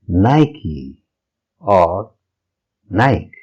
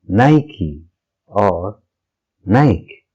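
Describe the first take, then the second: The two takes are said the same way.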